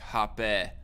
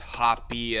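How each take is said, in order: First: The name ends in a short 'eh' vowel. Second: The name ends in a long 'ee' vowel. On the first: "like with a short e, not a long e" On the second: "I've never heard anybody pronounce it as hoppy"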